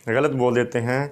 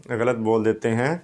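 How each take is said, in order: The two takes are said the same way.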